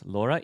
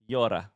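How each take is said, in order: First: The word begins with an L sound. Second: The word begins with a Y sound. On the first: The speaker calls it wrong. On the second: The speaker calls it right.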